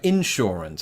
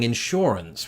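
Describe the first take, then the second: First: The stress is on the first syllable. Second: The stress is on the second syllable. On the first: This is the American way. "I put the emphasis on the in" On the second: This is the English way. "instead of saying insurance, which is what I would have used to have done uh, back in, in England"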